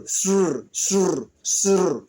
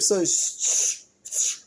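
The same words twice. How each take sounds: First: "shr" with the R added, repeated; sound drill. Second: "sh-" breathed out without voice; only the "sh-" sound, unvoiced; sound demo. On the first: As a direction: sound "shr" with a clear R after the sh. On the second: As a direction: hiss "sh-" to isolate the sound. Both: Shown as a demonstration. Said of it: "can you say shr".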